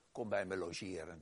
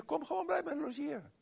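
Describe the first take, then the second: First: Said in the usual way. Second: "kom gewoon bij me logeren" with "bij" stressed, pitched much higher; emphatic invitation. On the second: Real, not acted. Preacher urging the doubter to come and stay, with high emphatic stress on "bij". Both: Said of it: "Dat is de beste manier".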